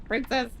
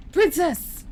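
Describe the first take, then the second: First: Mild, restrained mock scream; half-hearted imitation of a yell; retold scream. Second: High, alarmed mock scream; hammed-up knightly yell; screamed "Princess". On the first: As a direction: imitate the cry without raising the volume. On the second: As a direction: cry out for the princess, high-pitched. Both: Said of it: "He's always screaming".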